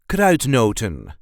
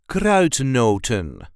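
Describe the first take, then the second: First: The final n sound is clearly pronounced. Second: The same.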